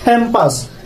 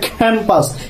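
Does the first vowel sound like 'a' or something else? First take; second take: a; a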